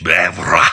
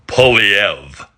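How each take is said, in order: First: Bèvre with a mock French lilt; French pronunciation. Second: Poilievre said the English way, POL-ee-ev; English pronunciation. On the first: Naming the candidate the French way, French pronunciation. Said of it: "if you want to be French". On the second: Naming the candidate the English way, English pronunciation. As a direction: Poilievre anglicized, flat English vowels. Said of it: "if you want to be English". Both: Shown as a demonstration.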